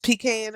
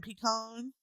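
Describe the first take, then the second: First: PEE-can for "Pecan"; pronunciation variant. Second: Puh-KAHN for "pecan"; pronunciation variant. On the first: Comparing two ways to say it, "Pecan" as PEE-can. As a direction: stress the first syllable of "Pecan", PEE-can. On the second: Comparing two ways to say it, "pecan" as puh-KAHN. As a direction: stress the second syllable of "pecan", puh-KAHN. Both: Shown as a demonstration.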